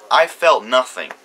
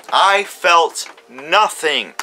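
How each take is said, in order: First: Said in the usual way. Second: Very slow, each word spaced out: I felt nothing; emphatic repeat. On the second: Real, not acted. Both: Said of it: "repeats it for emphasis".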